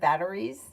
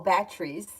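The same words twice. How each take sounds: First: The word is said in a standard accent. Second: The word is said in a Bronx accent. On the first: This is the usual way to say it. "instead of batteries" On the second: This is how the grandfather said it. "batteries instead of batteries"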